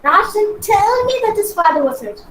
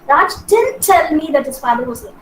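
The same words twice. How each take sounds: First: The word tell carries the main stress. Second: The word didn't carries the main stress. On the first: He passed it on some other way, not in person. "if I stress this word on tell" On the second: He never said it at all. "stress on didn't"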